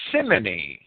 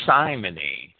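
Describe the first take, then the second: First: Simony with short i, SIM-uh-nee; first pronunciation. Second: Simony with long i, SIGH-muh-nee; alternative pronunciation. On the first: Lecturer naming a church abuse, first pronunciation of simony, SIM-uh-nee. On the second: Lecturer offering another reading, simony pronounced SIGH-muh-nee. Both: Shown as a demonstration. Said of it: "simony or simony".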